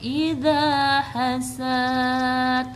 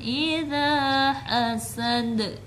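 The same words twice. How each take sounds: First: The final vowel is drawn out long. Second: The final vowel is short, ending with a bounce. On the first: The speaker calls it wrong. "Bukan idza hasad untuk mengakhiri ayat, tidak seperti itu" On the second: The speaker calls it right. "tidak boleh dipanjangkan"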